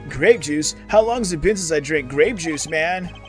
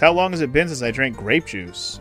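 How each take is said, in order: First: It is said in a put-on surfer voice. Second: It is said in his ordinary voice.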